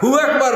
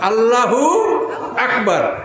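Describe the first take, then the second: First: The opening 'Alla' is dropped, starting at 'hu'. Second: The opening 'Alla' is fully pronounced before 'hu'. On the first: The speaker calls it wrong. "হু আকবার না, খবরদার হু আকবার না" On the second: The speaker calls it right. "এভাবে কথাটা আপনি সঠিকভাবে বলবেন"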